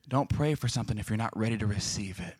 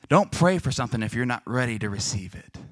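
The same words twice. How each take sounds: First: Soft, low, grave delivery; hushed repeat. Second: Said in the usual way. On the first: Real, not acted. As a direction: drop it low so it sinks in. Same line repeated for solemn emphasis.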